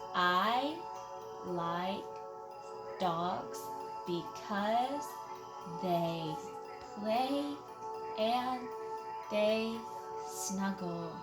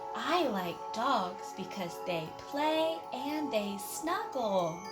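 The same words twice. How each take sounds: First: The sentence is read in a calm, plain voice. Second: The sentence is read in an excited voice.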